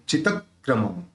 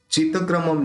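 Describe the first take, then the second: First: चितक्रमम split as "chitak-kramam"; अलग से उच्चारण. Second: चितक्रमम run on with a single k; गलत उच्चारण. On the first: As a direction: stop on the doubled k in चितक्रमम. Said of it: "अलग से pronounce हुआ है". (चितक्रमम में दोहरा क, अलग से) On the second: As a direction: say "chita-kramam" for चितक्रमम, no break. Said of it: "चितक्रमम नहीं". (चितक्रमम बिना क पर रुके) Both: Shown as a demonstration.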